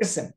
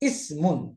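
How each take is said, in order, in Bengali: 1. শব্দটি একটি খালি শেষ ব্যঞ্জনবর্ণ দিয়ে শেষ হয়। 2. শব্দটি শেষে একটি যোগ করা '-un' উচ্চারণাংশ দিয়ে শেষ হয়।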